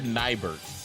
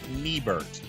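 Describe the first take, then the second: First: The name is said in a plain way. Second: The name is said in a foreign-influenced way. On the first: "I said Nibert" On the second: "I always want to pronounce it Niebert because that's how they would do it"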